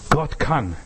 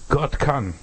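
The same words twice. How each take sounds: The two takes are said the same way.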